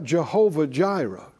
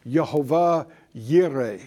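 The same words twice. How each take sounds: First: Said in the usual way. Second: "Yehovah Yireh" with Y sounds in place of J; alternative pronunciation. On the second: Shown as a demonstration. Preacher shows class another way to pronounce the name, "Yehovah Yireh" with Y sounds. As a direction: say "Yehovah Yireh" Hebrew-style, both words starting with Y. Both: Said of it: "depending on how you pronounce it".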